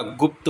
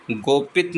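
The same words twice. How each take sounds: First: गुप्त as one syllable, "gupt"; short u and joined pt in गुप्त; correct form. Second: गोपित as "go-pit", with o and i; wrong form. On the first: Teacher giving the correction, गुप्त said as "gupt". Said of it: "गुप्त होता है". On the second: Teacher showing the mistake, गोपित said as "go-pit". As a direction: say two syllables in गोपित, "go" then "pit". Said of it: "गोपित नहीं होता". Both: Shown as a demonstration.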